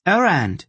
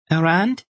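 First: High, loud gleeful shout of the word; triumphant cry. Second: High rising query of the word; questioning. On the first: The little boy catches the rolling orb, triumphant. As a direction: crow it as you snatch the prize. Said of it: "He laughed triumphantly". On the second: The little boy in his arms asks, curious. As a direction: ask it up at him, wondering. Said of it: "he asked". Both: A narrator's reading.

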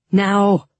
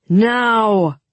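First: Said in the usual way. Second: Loud, raised, drawn-out shout; louder command. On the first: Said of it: "Tolia said, then louder". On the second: A narrator's reading. Tolia repeats his order over the mob, shouting louder. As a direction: call the order out at full voice. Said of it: "then louder".

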